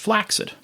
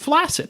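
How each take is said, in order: First: The double c sounds like ks. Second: The double c sounds like a single s. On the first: This is how older dictionaries said it should be said. "the word should be pronounced flaccid. And that makes sense when you think about success, accident" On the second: This is how people say it today. "that's the only way I've ever heard anybody say it in the real world"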